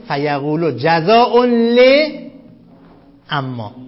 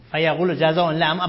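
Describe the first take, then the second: First: فیقولو جزاء ل dictated slowly, word by word; slow dictation to students. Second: Said in the usual way. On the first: Shown as a demonstration. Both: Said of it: "این فیقولو تو گیومه قرار بدید".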